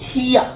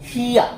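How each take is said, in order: The two takes are said the same way.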